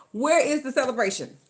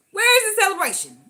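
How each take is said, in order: First: Said in the usual way. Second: Where higher and louder in outrage; louder, higher exasperated question; indignant repeat. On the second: Shown as a demonstration. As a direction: ask again with mock indignation.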